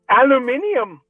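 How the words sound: It is said in a British accent.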